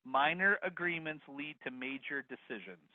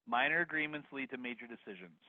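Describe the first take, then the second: First: Slow, deliberate dictation; slow repeat. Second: Said in the usual way. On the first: Shown as a demonstration. Host repeating the last bit for attendees, slow and deliberate. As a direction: spell it out slowly for note-takers. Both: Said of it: "Please repeat the last bit".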